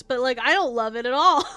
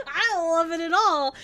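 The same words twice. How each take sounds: First: Said in the usual way. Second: Laughing through the line I don't love it at all; laughing repeat. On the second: Real, not acted.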